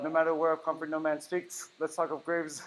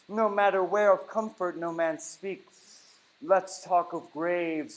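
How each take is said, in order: First: The line starts without a full breath first. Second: A full inhale through the nose precedes the line. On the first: The speaker calls it wrong. "I'm not asking for uh" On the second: The speaker calls it right. "I'm asking for full inhale. That's why I did it with my nose"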